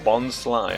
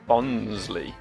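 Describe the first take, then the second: First: The name ends with a 'sly' sound. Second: The name ends with a 'lee' sound. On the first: It combines bonsai and sly. The speaker calls it right. "it's obviously Bonsly because it's like bonsai" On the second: It sounds like a surname. The speaker calls it wrong. "I've always pronounced it Bonsley. It sounds like a surname"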